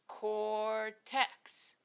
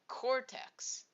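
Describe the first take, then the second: First: The word is said slowly, syllables apart. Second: The word is said at normal speed.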